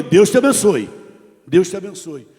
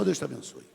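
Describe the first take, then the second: First: A louder, firm blessing. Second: Soft blessing. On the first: Retold or imitated. Preacher answering the insults with a firm blessing. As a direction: bless him back with conviction. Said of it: "E eu respondi". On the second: Shown as a demonstration. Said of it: "É só".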